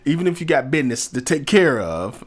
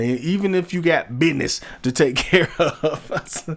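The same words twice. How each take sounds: First: Business is said in a plain, normal pronunciation. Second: Business is said in a silly, playful pronunciation. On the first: "I know I know it's business" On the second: "I say it like that just to be silly"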